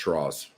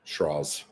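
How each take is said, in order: The two takes are said the same way.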